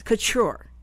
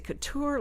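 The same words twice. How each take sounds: First: "Couture" said koo-CHOOR. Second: "couture" said koo-TOOR. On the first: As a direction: say "Couture" with a ch sound in the middle. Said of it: "is it couture like a T". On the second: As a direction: say "couture" with a plain T, not ch. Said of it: "like a T". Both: Shown as a demonstration.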